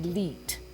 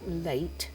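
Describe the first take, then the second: First: The vowel sounds like 'ee' as in see. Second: The vowel sounds like 'ay' as in day. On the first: The speaker calls it wrong. "you say E instead of A" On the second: The speaker calls it right. "when you say a word like late"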